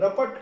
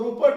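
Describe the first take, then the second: First: The first vowel is an 'a' sound. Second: The first vowel is an 'u' sound. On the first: The speaker calls it right. "रपट का उच्चारण करेंगे" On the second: The speaker calls it wrong. "इसको रुपट नहीं पढ़ेंगे"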